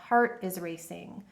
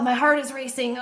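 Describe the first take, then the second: First: It is said in a calm, curious tone. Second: It is said in an alarmed, anxious tone.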